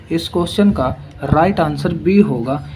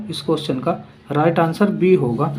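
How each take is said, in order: The two takes are said the same way.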